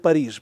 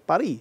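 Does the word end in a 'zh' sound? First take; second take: yes; no. First: The word ends with a 'zh' consonant sound. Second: The word ends on a vowel, no final consonant. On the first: This is the Russian form from old French. "а мы говорим Париж" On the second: This is the modern French form. "как французы сегодня говорят Пари"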